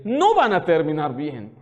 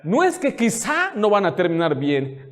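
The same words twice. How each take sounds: First: "no" hit hard and low, slow and final; firm stress on no. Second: Said in the usual way. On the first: Shown as a demonstration. Pastor warning young women, stressing no slowly. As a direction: lower and slower, land "no van a terminar bien" as certain.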